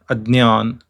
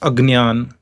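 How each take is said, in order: First: The middle cluster sounds like d plus ny. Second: The middle cluster sounds like g plus n. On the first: This is how it is said in Maharashtra. "the right pronunciation is adnyan" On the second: This is how it is said in South India. "In South India it is pronounced as like this"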